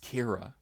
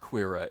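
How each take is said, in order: First: The name starts with a plain K sound. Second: The name starts with a KW sound. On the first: The speaker calls it right. "the Q was a hard K sound" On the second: The speaker calls it wrong. "It's not Quira"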